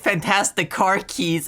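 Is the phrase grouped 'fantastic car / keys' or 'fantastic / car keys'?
fantastic / car keys. Fantastic is separate, then car keys grouped. These are ordinary car keys that happen to be fantastic. "like we just made a completely unrelated set of like car keys"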